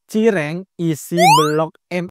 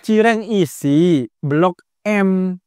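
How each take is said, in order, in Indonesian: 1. Jedanya ada setelah kata cireng. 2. Jedanya ada setelah kata isi. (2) "Nggak gitu bacanya"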